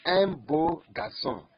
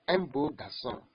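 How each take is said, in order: First: Un beau garçon said slowly and loudly; slow model phrase. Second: Said in the usual way. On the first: Shown as a demonstration. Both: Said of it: "Look at this example".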